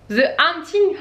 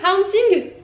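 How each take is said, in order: First: "Haunting" tried higher, with the H dropped; trying a pronunciation. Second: "Haunting" pitched very high, as a doubtful question; questioning second try. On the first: Vlogger testing how to say the title, tentative "Haunting". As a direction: test out "Haunting" as a French speaker would. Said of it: "Je sais plus comment ça se prononce". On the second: Vlogger doubting her own English, high questioning "Haunting". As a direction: try "Haunting" again, much higher and unsure. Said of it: "Je sais pas". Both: Shown as a demonstration.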